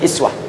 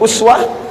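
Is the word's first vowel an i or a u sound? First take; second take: i; u. First: The first vowel is a front i sound. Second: The first vowel is a rounded u sound. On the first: "bisa dibaca dengan iswah" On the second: "bisa dibaca dengan uswah"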